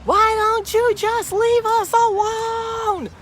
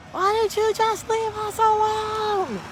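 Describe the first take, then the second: First: Much higher, loud, slow shouted line; angry yell. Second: High, loud shouted repeat; angry yell. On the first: Vlogger imitating the red-faced driver's slow loud shout. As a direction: bellow it like the furious driver. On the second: Vlogger repeating the driver's loud high yell. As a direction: yell it again like the angry man. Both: Retold or imitated. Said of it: "So he yelled".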